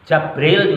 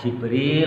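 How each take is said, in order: First: The first vowel is an 'a' sound. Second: The first vowel is an 'i' sound. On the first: "ini dibaca Jabril juga boleh" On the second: "ada seorang qori yang membaca ya Jibril lah"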